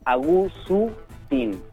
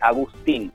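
First: A vowel is added between the s and t. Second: The s and t are said together without a vowel. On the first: "para completar esa falta en su idioma, dirían Agustín, le agregan una vocal" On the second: "tiene ahí dos consonantes que se juntan en el nombre, que es la S y la T"

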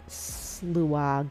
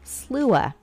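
First: The word ends with a hard g sound. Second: The word ends in a vowel, with no g. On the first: The speaker calls it wrong. "Let me see if I'm pronouncing this right" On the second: The speaker calls it right. "it's just Slua. ... most of the G's they don't pronounce anyway"

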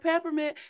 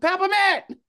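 First: The word is said plainly, without conviction. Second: The word is said boldly, with strong conviction. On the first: "It wasn't like peppermint" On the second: "it's the conviction in his voice"

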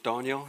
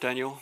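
First: The name is said the original way. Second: The name is said the common English way. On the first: The speaker calls it right. "if you want to pronounce it correctly" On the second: The speaker calls it wrong. "I'm Daniel"

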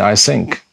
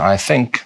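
First: The word begins with an s sound. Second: The word begins with a th sound. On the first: The speaker calls it wrong. "many Israelis who do not pronounce English very well" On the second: The speaker calls it right. "instead of saying"

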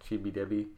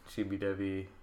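First: The second word has a B sound in the middle. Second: The second word has a V sound in the middle.

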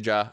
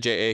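First: The name is said as one syllable. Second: The name is spelled out as two letters. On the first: "I don't say Ja" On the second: "I say J.A"

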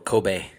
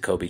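First: Kobe is said the native Japanese way. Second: Kobe is said the usual English way.

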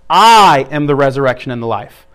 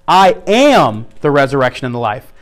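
First: The stress is on "I". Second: The stress is on "am".

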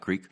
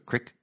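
First: The word has a long vowel, like creek. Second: The word has a short vowel, like crick. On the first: This is how outsiders say it. The speaker calls it wrong. "Not Creek" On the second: This is how local people say it. The speaker calls it right. "Crick, if you're from around here"

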